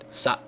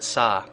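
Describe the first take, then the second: First: The word ends with a glottal stop. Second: The word ends on an open vowel. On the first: It means just, for a moment. "if you put a glottal stop there at the end" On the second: It means to or at. "make sure you pronounce it sa with an open a"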